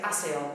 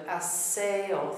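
First: "aseo" hurried together, losing its three-beat rhythm; imitating a learner's squashed "aseo"; common mispronunciation. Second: "Aseo" measured as a-SE-o, stress on SE; correct, drawn-out "Aseo" with beat on the e; three-beat rhythm. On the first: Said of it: "amazing how many people say aseo". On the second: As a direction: give "Aseo" three clear syllables, middle one stressed. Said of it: "haven't understood the rhythm". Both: Shown as a demonstration.

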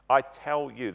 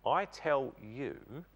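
First: Firm weight on I in "I tell you"; emphatic "I tell you", the I stressed. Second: "I tell you" drawn out very slowly and softer; solemn, slow "I tell you" with I stressed; slow emphatic. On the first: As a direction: press hard on "I tell you". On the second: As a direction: lean slowly on each word of "I tell you". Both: Shown as a demonstration. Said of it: "that's emphatic".

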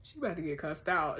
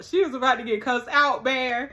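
First: Lower, softer aside of a threat; low-key warning. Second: Louder, insistent stress on "is"; emphatic warning. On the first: Reacting to the childminder's message, quiet low warning. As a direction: say the threat low and under control. Threat first muttered, then escalated. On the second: Reacting to the childminder's message, loud emphatic warning. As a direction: punch "is" as the threat builds. Same threat repeated with more force. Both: Real, not acted.

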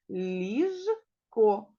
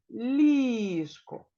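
First: Ліжко in two parts, ліж and ко; clearly chopped ліж-ко for counting syllables. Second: Ліжко with a long stressed ЛІЖ; ЛІІІЖко, first syllable drawn out. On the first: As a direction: pause between the syllables of «Ліжко». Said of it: "В цьому слові два склади". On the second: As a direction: stretch the first vowel of Ліжко, joined into one word. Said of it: "наголошеним є перший склад". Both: Shown as a demonstration.

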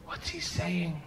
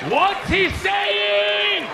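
First: Soft, hushed question; discreet asking. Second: Very high, slow shout; loud, drawn-out, exaggerated yelling; yelled demand. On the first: Acted. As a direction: ask him quietly, on the side. Furtively asking another man. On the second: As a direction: holler each word, stretched out long. Same question, now yelled.

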